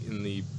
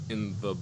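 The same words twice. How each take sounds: The two takes are said the same way.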